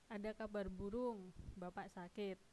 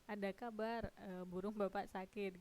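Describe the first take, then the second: First: The pause comes after the word burung. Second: The pause comes after the word kabar. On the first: There is a rumor that father is sick. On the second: There is news that father's bird is sick.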